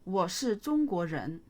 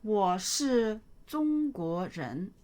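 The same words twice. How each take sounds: First: Said in the usual way. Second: Slow model reading. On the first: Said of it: "teacher repeats at normal speed". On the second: Shown as a demonstration. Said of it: "teacher models sentence slowly".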